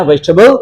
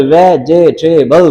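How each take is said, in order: First: "वेजिटेबल" compressed to three syllables, vej-ta-bal; quick "वेजिटेबल" in three beats; three-syllable pronunciation. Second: "वेजिटेबल" slowly in four syllables, ve-je-te-bal; common mispronunciation. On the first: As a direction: say "वेजिटेबल" with the middle vowel dropped. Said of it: "उसके syllable बनते हैं three". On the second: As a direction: say "वेजिटेबल" with a full extra middle syllable. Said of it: "लेकिन कहना तो नहीं ना". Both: Shown as a demonstration.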